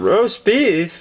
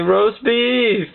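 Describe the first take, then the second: First: Baffled questioning repeat; puzzled echo. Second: Higher-pitched mock sleep-talk outburst; raised-pitch cry, not truly shouted; mock scream. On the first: Retold or imitated. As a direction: echo it back in mild disbelief. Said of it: "we thought he was trying to have a conversation". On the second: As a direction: call it out like a dreaming cousin. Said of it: "out there screaming out".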